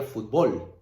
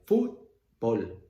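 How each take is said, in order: First: Fútbol wrongly stressed as fut-BOL; wrong final stress. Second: Fútbol split, FÚT loud and drawn out, bol falling; stress on first syllable. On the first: Teacher showing the mistaken reading, stress on BOL in fútbol. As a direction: shift the punch in fútbol onto BOL. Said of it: "no es en bol, sino sería fútbol". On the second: Teacher demonstrating correct stress, FÚT punched in Fútbol. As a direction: hammer FÚT, pause, then drop bol. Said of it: "El golpe de voz está en foot". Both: Shown as a demonstration.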